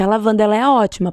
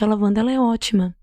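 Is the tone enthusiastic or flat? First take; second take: enthusiastic; flat. First: It is said in a confident, convincing tone. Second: It is said in a flat, unconvincing tone. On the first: This delivery persuades the listener to buy. The speaker calls it right. "Agora, se eu falar" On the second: This delivery will not persuade anyone to buy. The speaker calls it wrong. "não adianta falar assim"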